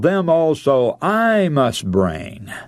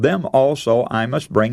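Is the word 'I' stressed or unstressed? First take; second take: stressed; unstressed. First: The word 'I' is strongly stressed. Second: The word 'I' carries no special stress.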